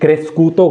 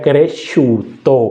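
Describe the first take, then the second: First: The middle consonant is an 'sk' sound. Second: The middle consonant is a 'sh' sound. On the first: The speaker calls it wrong. "क्रेस्कूतो गलत है" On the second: The speaker calls it right. "अब ये बन गया क्रेशूतो"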